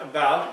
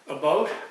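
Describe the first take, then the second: First: It is said with a non-Canadian vowel. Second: It is said with a Canadian vowel. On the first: "not about, as uh, most non-Canadians do" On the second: "You notice how I pronounce the word about"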